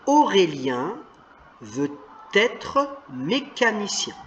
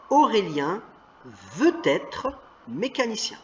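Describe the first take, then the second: First: Veut et être séparés, sans liaison. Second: Veut être lié, on entend veu-t-être; avec liaison. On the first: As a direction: dis veut puis être, détachés. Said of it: "Si on lit le mot tout seul, c'est veut". (lecture sans liaison entre veut et être) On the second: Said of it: "une consonne qui suit une voyelle, ça fait une liaison". (veut être prononcé avec la liaison en t) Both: Shown as a demonstration.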